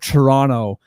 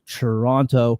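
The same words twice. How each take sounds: First: The second t is dropped. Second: The second t is clearly pronounced.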